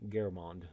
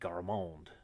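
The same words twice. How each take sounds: First: It is said in a plain accent. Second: It is said in an exaggerated French accent.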